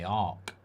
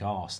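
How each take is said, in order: First: The name ends with a k sound. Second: The name ends with an s sound. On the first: "I'd say Arc" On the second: "I think you think arse"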